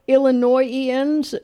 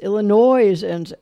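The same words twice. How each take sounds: First: The S in the middle is silent. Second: The S in the middle is sounded.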